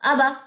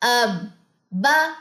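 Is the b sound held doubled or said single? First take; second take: single; doubled. First: The b is short, with no hold. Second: The b is held long before the vowel. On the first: The speaker calls it wrong. "यहां पे स्टूडेंट्स क्या गलती करते हैं" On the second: The speaker calls it right. "इसकी जज्म पे स्टे करना जरूरी है"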